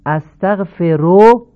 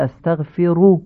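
First: "استغفروا" ending in an open o, astaghfero; non-standard damma. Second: "استغفروا" ending in a pure u, astaghfiru; correct Arabic damma. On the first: Teacher shows learners the faulty reading, non-standard damma. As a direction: loudly show "استغفروا" with final ro instead of ru. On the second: Teacher corrects the word for learners, correct Arabic damma. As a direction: say "استغفروا" with final ru, not ro. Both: Shown as a demonstration. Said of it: "تمام این ضمه ها باید فصیح تلفظ بشن".

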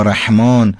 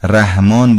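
First: رحمان with a strong throat-made ح; slow Arabic-style ح in رحمان; Arabic pharyngeal ha. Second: Slow Persian-style رحمان with light h; Persian pronunciation. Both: Shown as a demonstration. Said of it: "اینا معناش خیلی متفاوته".

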